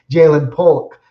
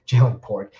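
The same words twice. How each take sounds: First: Polk said with a clear l and louder, fixing Pork; corrected name. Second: Pork said with an r instead of the l, through a laugh; mispronounced name. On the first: Correcting his slip on the receiver's name, louder. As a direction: hit Polk firmly with the l sound. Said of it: "Jalen Pork". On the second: Slipping on the rookie's name, laughing at it. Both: Real, not acted.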